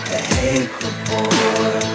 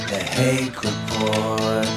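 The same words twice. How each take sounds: Both takes have the same delivery.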